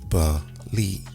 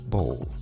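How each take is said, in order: First: The ending is said as two syllables. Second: The ending is said as one syllable. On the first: The speaker calls it right. "The B O L E is pronounced using two syllables" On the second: The speaker calls it wrong. "B O L E would seemingly be pronounced bowl"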